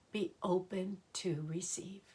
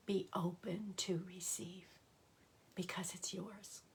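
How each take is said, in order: First: Said in the usual way. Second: Hushed blessing that dies into breath; whispered affirmation, softer to the end. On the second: Acted. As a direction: repeat it as a soft whisper, fading away.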